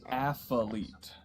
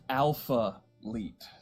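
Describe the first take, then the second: First: The name sounds like the word athlete. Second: The name sounds like alpha followed by leet. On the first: The speaker calls it wrong. "I thought it was Athlete" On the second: The speaker calls it right. "the correct pronunciation is Alpha Leet"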